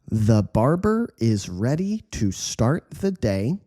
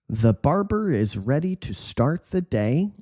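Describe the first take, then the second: First: The sentence is read at a slow pace. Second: The sentence is read at a fast pace. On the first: "slow read" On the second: "quick speed"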